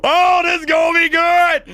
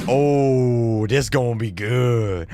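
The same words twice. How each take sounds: First: High, loud giddy shout; gleeful excitement. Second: Low, drawn-out savoring of the drama; gleeful anticipation. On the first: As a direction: shout it high with hammed-up glee. Gleeful at coming drama. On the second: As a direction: relish it slowly and low. Relishing the coming fight. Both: Acted.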